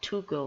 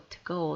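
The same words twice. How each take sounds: First: The word 'to' has a full vowel. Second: The word 'to' is reduced and weak. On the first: The speaker calls it wrong. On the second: The speaker calls it right.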